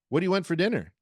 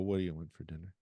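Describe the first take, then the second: First: It is said lively, with strong interest. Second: It is said flatly, in a bored tone. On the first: The listener will want to answer. The speaker calls it right. "you say it in strong interest" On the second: The listener will not want to answer. The speaker calls it wrong. "you're sort of in monotony or boredom"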